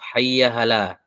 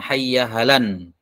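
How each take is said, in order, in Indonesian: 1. Frasa ini berakhir dengan vokal a panjang. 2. Frasa ini berakhir dengan bunyi n tambahan. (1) "bisa dipasangkan alif" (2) "Bisa dengan tanwin"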